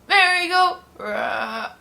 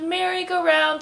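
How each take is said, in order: First: It is said slowly and faintly, dragging out. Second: It is said at an ordinary, steady speed. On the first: The toy's battery is running out. "it was dying" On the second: The toy is working properly. "like at a normal pace"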